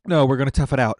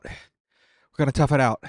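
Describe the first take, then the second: First: Said in the usual way. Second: Slow and deliberate, each word set down; slow determined. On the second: Real, not acted. Refusing a drink to stay tough, slow and firm. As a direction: drag it out like a vow. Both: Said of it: "We are men".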